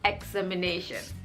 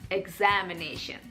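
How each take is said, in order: First: The stress is on the first syllable. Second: The stress is on the second syllable. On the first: The speaker calls it wrong. "I put the stress on the first syllable instead of the second syllable" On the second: The speaker calls it right. "The stress is on the second syllable"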